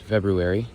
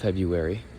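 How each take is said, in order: First: Every sound is said, just as it is spelled. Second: A sound is dropped, giving an easier reduced form. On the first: The speaker calls it right. "it is pronounced February" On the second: The speaker calls it wrong. "not February"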